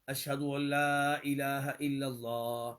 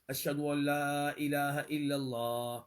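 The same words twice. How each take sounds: No difference in how they are said.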